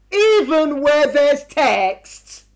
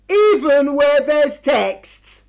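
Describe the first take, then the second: First: Very slow, each word weighed; slow emphatic. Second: "Even" stressed, slow and falling; slow emphatic. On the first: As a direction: press "even where there's text" slowly. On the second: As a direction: lean on "Even", drag the phrase. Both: Shown as a demonstration. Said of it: "repeated slowly for emphasis".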